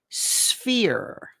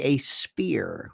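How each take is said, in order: First: The word begins with an 'sf' sound. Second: The word begins with an 'sp' sound. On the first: The speaker calls it right. "This is a sphere" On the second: The speaker calls it wrong. "as some people say, a spear, who can't pronounce"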